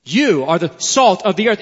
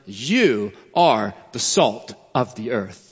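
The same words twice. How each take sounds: First: Said in the usual way. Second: "You" weighted, lower and slow through "You are the salt of the earth"; emphatic you. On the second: Shown as a demonstration. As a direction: lean hard on "You", then let the line settle slowly. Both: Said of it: "It's an emphatic you".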